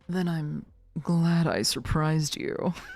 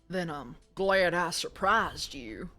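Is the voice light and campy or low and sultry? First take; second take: low and sultry; light and campy. First: The voice is low and sultry. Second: The voice is light and campy. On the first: The speaker calls it right. "I can do a sultry" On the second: The speaker calls it wrong. "Not the, not the twink"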